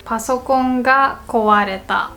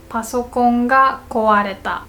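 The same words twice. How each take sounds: The two takes are said the same way.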